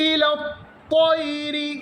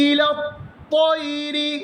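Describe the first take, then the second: The two takes are said the same way.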